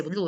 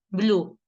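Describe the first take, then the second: First: BLUE as "blu-e", E sounded; what he doesn't say, blue read "blué"; Spanish spelling reading. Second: BLUE as "bloo", one falling vowel; short Blue, just "blu"; English pronunciation. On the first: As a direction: say blue with two vowels. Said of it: "¿cómo pronuncia?". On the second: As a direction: say Blue with a silent E. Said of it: "¿Qué dice?". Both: Shown as a demonstration.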